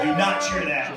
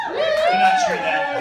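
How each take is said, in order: First: Said in the usual way. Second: High, loud, slow "Do not cheer that"; loud warning. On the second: Real, not acted. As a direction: tell the crowd off.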